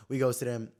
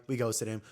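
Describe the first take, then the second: No difference in how they are said.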